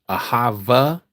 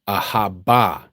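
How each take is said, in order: First: The middle consonant is a v sound. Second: The middle consonant is a b sound. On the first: The speaker calls it wrong. "Ahava is not the pronunciation. That is Yiddish" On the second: The speaker calls it right. "Ahaba is the true pronunciation"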